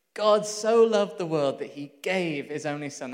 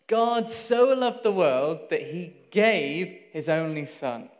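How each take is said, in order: First: Said in the usual way. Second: Slow, louder, every word weighed: "God so loved the world"; slow reverent reading. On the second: Shown as a demonstration. Preacher reciting John 3:16 to the congregation, slow and weighty. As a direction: lay out the verse slowly, word by word. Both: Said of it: "That's John three sixteen".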